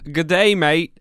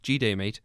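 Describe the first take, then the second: First: Both words of the greeting are said in full. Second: The greeting is squeezed into one short syllable.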